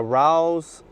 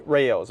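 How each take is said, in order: First: Rao's said as "rowz", rhyming with cows; mispronounced brand name. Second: Rao's said as "RAY-ohz", in two syllables; corrected brand pronunciation. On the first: Husband naming pasta sauce, Rao's mispronounced as "rowz". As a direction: say Rao's as one syllable, "rowz". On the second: Husband corrected on sauce name, Rao's said "RAY-ohz". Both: Real, not acted.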